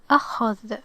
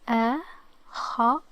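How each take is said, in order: First: Said in the usual way. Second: The word broken into separate sounds; sounded out. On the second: Shown as a demonstration. Teacher giving the word a try, sound by sound. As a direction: pause between each sound of the word. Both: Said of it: "let's give it a try".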